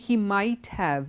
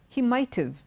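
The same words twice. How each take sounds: First: Have is said as a separate full word. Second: Have is reduced and joined onto might. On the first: The speaker calls it wrong. "We don't say" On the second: The speaker calls it right. "When you say it together as a contraction"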